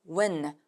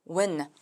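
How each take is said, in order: No difference in how they are said.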